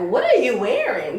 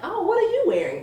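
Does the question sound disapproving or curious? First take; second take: disapproving; curious. First: It sounds disapproving and judgmental. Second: It sounds curious and intrigued.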